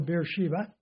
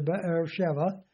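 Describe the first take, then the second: First: The name is pronounced the English way. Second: The name is pronounced the Hebrew way. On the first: "We say Beersheba" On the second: "That's the way you would say it in Hebrew"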